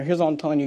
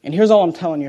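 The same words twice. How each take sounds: First: Here's all I'm telling you, said softer; softer repeat. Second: Said in the usual way. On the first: Shown as a demonstration. Preacher repeats his point softer to the congregation. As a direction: drop the level and lean in. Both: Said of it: "repeated line, second softer".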